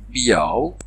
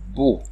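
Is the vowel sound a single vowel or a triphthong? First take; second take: triphthong; single vowel. First: The word has three vowels gliding together. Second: The word has one single vowel sound. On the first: This is the thirteenth-century pronunciation. "on prononce encore une triphtongue, c'est-à-dire trois voyelles en même temps" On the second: This is the present-day pronunciation. "Aujourd'hui, on prononce une seule voyelle"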